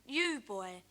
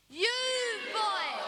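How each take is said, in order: First: Said in the usual way. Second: Put-on loud practice shout of You boy. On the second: Shown as a demonstration. Leading the audience in a loud You boy. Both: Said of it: "shout as loud as you can".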